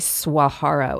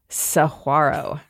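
First: The word begins with a 'swa' sound. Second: The word begins with a 'sa-gwa' sound. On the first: The speaker calls it wrong. "Usually we say Saguaro, and that is incorrect" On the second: The speaker calls it right. "It is Saguaro"

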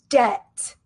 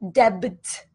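First: No B sound is pronounced before the final T. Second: A B sound is pronounced before the final T. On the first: The speaker calls it right. "We say debt, debt. Pretend that the B is not even there" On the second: The speaker calls it wrong. "We do not pronounce this B sound. ... So we do not say debt"

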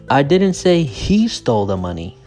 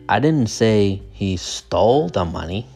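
First: The stress is on the word 'he'. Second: The stress is on the word 'stole'. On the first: Someone else took it. "So the stress is on he" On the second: He may have just borrowed it. "The stress is on stole"

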